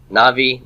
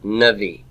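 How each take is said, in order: First: Navi said with a full open ah in the first syllable, NAH-vee; absolute form. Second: Navi said with the first vowel cut to a quick schwa, nə-VEE; Navi, first syllable reduced to a short uh; construct form. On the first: Teacher shows students the absolute form, full first vowel. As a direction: Navi with a long clear ah, unreduced. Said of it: "This is prophet in the absolute". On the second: Teacher shows students the construct form, reduced first vowel. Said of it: "This is the prophet of in the construct". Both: Shown as a demonstration.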